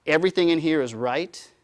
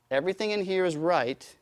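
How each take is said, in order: First: Mock dogmatic. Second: Said in the usual way. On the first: Mocking closed system mindset.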